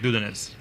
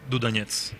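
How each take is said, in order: First: The stress falls on the first syllable. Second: The stress falls on a later syllable. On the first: This is how Americans tend to say it. "the Americans tend to make the stress on the first vowel" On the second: This is the Russian pronunciation. "in Russian, it is"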